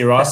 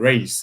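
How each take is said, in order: First: The vowel sounds like 'ah', as in 'Ross'. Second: The vowel sounds like 'ay', as in 'race'. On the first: "Some people say Ross" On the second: "some people say race"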